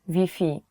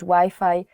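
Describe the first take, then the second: First: Wi-Fi is said with Polish sounds. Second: Wi-Fi is said with English sounds. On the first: Local listeners will understand it. The speaker calls it right. "you have to change the Wi-Fi pronunciation" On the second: Local listeners will not understand it. The speaker calls it wrong. "people will not understand you"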